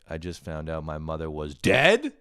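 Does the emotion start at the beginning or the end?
end. It sounds flat until an emotional burst at the end.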